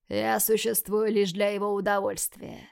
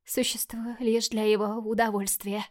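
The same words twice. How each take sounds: First: Said in the usual way. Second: Broken whisper. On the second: Acted. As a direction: voice gone to a whisper. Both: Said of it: "Голос Мишель сорвался".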